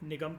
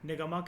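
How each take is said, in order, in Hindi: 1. शब्द "m" की ध्वनि पर खत्म होता है। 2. शब्द "m" के बाद एक स्वर पर खत्म होता है। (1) "एम के बाद जो ए है वो साइलेंट है" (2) "आप इसको निगमा कह लो"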